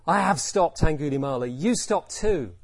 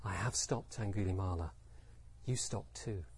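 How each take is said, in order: First: Loud, forceful command; fierce. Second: Soft, low and inward; really quiet. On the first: Buddha meeting Angulimala's violent intent, fierce command. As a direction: meet violent intent head-on, loud and firm. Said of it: "Did he say it fiercely". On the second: Buddha reflecting his own non-violence, very quiet. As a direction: say it very softly, from inner stillness. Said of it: "maybe he said it really quietly". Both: Shown as a demonstration.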